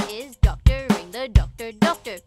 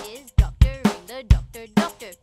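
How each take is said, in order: Both takes have the same delivery.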